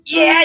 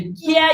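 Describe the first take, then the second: First: The voice is more squeezed, with gritty distortion. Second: The voice is bright and twangy without grit. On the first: "if I just constrict a little more" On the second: "we're gonna go real twangy"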